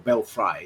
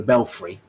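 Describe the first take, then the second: First: "belfry" said as BEL-fry; belfry ending in -fry. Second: "belfry" said as BEL-free; belfry ending in -free. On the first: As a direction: end "belfry" like the word fry. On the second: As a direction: end "belfry" with an ee sound. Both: Shown as a demonstration. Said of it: "Is it belfry or belfry?".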